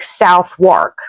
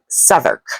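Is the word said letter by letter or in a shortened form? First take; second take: letter by letter; shortened. First: The word is sounded out as it is spelled. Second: The word is said in a clipped, shortened form. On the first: The speaker calls it wrong. "It looks to me like Southwark" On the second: The speaker calls it right. "They say this word more like Southwark"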